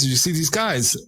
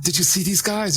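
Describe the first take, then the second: First: Said in the usual way. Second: Higher, urgent mock asking; pressing his friend, mildly imitated; eager question. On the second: Man urging his friend about the strangers, higher and eager. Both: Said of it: "he was gonna ask him".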